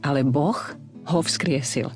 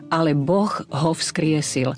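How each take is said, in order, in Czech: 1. Slovo Boh je odděleno pauzou. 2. Slovo Boh plyne dál bez jakékoli pauzy.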